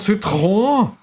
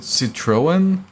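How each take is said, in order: First: It is pronounced with a French accent. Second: It is pronounced with an English accent. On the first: The speaker calls it right. "It's called Citroën" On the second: The speaker calls it wrong. "in English speaking countries they pronounce it Citroën"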